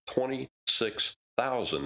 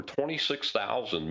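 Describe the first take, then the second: First: "Twenty-six thousand" slow, high, stress on "thousand"; "Twenty-six thousand" spelled out slowly, falling on "thousand"; slow emphatic repeat. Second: Said in the usual way. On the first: Real, not acted.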